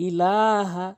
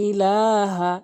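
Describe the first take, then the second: The two takes are said the same way.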